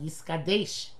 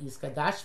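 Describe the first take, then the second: First: The last syllable has an 'e' vowel. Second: The last syllable has an 'a' vowel. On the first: The speaker calls it right. "but Yisgadesh" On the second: The speaker calls it wrong. "It should be not Yisgadash"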